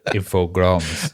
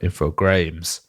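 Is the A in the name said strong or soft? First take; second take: soft; strong. First: The A is said as a soft vowel. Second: The A is said as a strong vowel. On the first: "Or a soft A" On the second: "which use a st- strong A as well"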